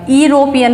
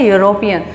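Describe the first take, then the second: First: यूरोपियन said with opening "ee", as "ee-ropian"; wrong pronunciation. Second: यूरोपियन opening with a Y glide, "yooropian"; correct pronunciation. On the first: Teacher showing what we don't say, यूरोपियन starting with "ee". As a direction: drop the Y glide, say यूरोपियन as "eeropian". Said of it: "नहीं बोलते हम इसको". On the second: Teacher giving students the pronunciation, यूरोपियन said with an opening "yoo". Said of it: "pronunciation क्या है". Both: Shown as a demonstration.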